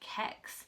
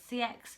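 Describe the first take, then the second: First: The name is said as one word. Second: The name is said as separate letters. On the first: "I like to call it Kex. that's how I pronounce it" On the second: "A lot of people say C X"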